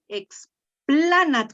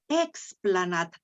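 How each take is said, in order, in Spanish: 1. El acento está en la segunda sílaba. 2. El acento está en la primera sílaba. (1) "leíste aquí explanat, como si ahí tuviera el macrón" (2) "Te lo llevas a la primera, a la, sílaba"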